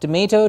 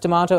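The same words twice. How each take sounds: First: The word uses the American pronunciation. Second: The word uses the standard, non-American pronunciation. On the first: The speaker calls it wrong. "and not tomato. Tomato is American slang" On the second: The speaker calls it right. "pronounced as tomato"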